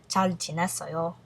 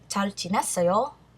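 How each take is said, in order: First: It is said as a statement. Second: It is said as a question.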